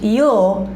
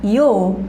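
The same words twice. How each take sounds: The two takes are said the same way.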